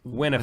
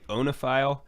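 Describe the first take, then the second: First: The word begins with a 'w' consonant sound. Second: The word begins with an 'oh' vowel sound. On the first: "that sounds right" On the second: "I always said onophile"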